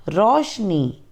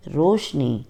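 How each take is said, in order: First: रोशनी with an open o, "rawshni"; wrong pronunciation. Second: रोशनी with a closed o, "roshni"; correct pronunciation. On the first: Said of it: "अशुद्ध उच्चारण अलग तरीके से होता है". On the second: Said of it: "शुद्ध उच्चारण अलग तरीके से होता है". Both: Shown as a demonstration.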